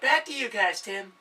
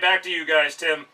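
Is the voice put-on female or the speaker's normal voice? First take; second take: female; normal. First: It is said in a put-on female voice. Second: It is said in the speaker's ordinary voice. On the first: The speaker calls it right. "She'd be like, ... I can't do a girl voice" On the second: The speaker calls it wrong. "she wouldn't sound like that"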